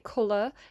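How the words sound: It is said in an English accent.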